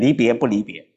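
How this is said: It is said like a statement. Parting in one sense is not parting in another. The speaker calls it right. "没有加问号哈 ... 要读成离别不离别"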